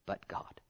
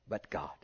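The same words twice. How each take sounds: First: "But God" whispered, no voice. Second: "But God" dropped much lower and softer; low, quiet. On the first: Preacher hushing church on "But God", whispered. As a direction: breathe "But God" in a hush. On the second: Preacher repeating "But God" to church, low and soft. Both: Acted. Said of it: "always remember that wonderful statement".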